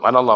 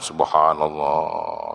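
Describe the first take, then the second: First: It is said fast and clipped. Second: It is said slowly and carefully.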